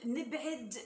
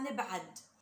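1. العين تُنطق بكسرة. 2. العين تُنطق بفتحة. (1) "لما نقول نبعد العين كسرة" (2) "هم عندهم عين فتحة"

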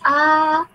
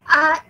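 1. Vokalnya panjang. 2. Vokalnya pendek. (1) "vokal yang panjang kita ada A" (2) "short vowel kita ada A"

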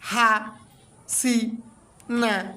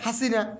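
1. প্রতিটি অক্ষর থেমে থেমে আলাদা করে বলা হয়। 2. অক্ষরগুলো এক নিঃশ্বাসে টানা বলা হয়। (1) "ভেঙে উচ্চারণ হলো" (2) "টোটালে হলো"

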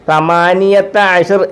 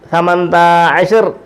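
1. ആദ്യത്തെ വാക്ക് എല്ലാ ഉച്ചാരണഭാഗങ്ങളോടും കൂടിയാണ് പറയുന്നത്. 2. ആദ്യത്തെ വാക്ക് ചുരുക്കിയാണ് പറയുന്നത്, ചില ഭാഗങ്ങൾ ഒഴിവാക്കിയിട്ടുണ്ട്. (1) "18-ന് സമാനിയത്ത അഷർ എന്ന് പറയുന്നതിന് പകരം" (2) "അറബികൾ സംസാരിക്കുമ്പോൾ സമന്ത അഷർ"

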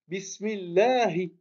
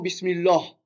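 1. Le mot finit par une voyelle courte 'i'. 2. Le mot finit sur le h, sans voyelle. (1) "Non. Bismillahi" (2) "C'est pas Bismillah"

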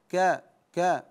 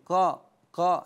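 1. صوت الكاف خفيف ورقيق. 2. صوت الكاف ثقيل ومفخم. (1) "لا كا كا كظيم" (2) "فلا نقول كظيم قا قا"

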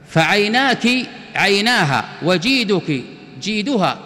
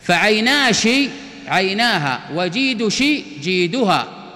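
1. تُنطق نهايات المؤنث بصوت k. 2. تُنطق نهايات المؤنث بصوت sh.

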